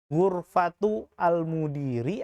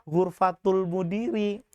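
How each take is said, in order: First: The vowel of 'al' is sounded separately. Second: The vowel of 'al' is dropped and linked. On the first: The speaker calls it wrong. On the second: The speaker calls it right.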